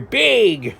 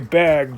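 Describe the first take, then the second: First: The word is said in a Wisconsin accent. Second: The word is said in a standard accent.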